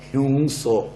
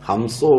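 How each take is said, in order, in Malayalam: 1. 'hyungso' എന്നാണ് പറയുന്നത്, y-glide ഉം ng ഉം ചേർത്ത്. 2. 'hamso' എന്നാണ് പറയുന്നത്, തുറന്ന 'a' സ്വരത്തോടെ. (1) "ഹ്യൂങ്സോ ആകും" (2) "ഹംസോ വഴങ്ങുകയില്ലാത്തതുകൊണ്ട്"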